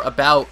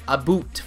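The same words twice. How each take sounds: First: Said in the usual way. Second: "a boot" with a long "oo" in place of "ow". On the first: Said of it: "for about". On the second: Shown as a demonstration. Showing what people think Canadians say, "a boot" with an "oo" vowel. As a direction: say "a boot" as the mock Canadian about. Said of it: "people think we say".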